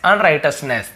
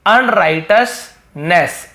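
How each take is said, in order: First: Said in the usual way. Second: अनराइटसनेस broken into slow, stretched syllables; teacher slowly models अनराइटसनेस; very slow demonstration. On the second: Shown as a demonstration. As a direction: spell out अनराइटसनेस slowly by sound. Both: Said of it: "अब देखिए".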